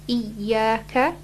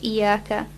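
First: The y sound is doubled and held. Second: The y sound is single and short. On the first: The speaker calls it right. "There's a shadda on the ya, so make sure you say iyaka" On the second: The speaker calls it wrong. "not just iyaka, because you would be changing the meaning"

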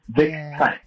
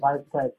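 First: The first name has a short 'i' vowel. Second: The first name has a long 'eye' vowel. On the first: The speaker calls it right. "but it's Vic for Victor" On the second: The speaker calls it wrong. "They always say Vice Price"

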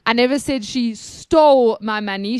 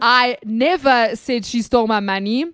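First: The stress is on "stole". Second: The stress is on "never".

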